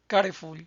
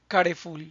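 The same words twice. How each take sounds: No difference in how they are said.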